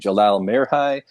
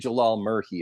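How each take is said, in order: First: The surname sounds like Merhi, without an f sound. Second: The surname sounds like Murphy, with an f sound. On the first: This is how other people say the name. "I've also heard people say Jalal Merhi" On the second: This is how the speaker says the name. "I say Jalal Murphy"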